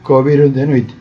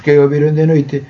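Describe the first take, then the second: First: Que and o merge into one syllable. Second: Que and o are said as separate syllables. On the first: The speaker calls it right. "ben pronunciado, coa fonética galega" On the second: The speaker calls it wrong. "estamos leendo ou falando en castelán"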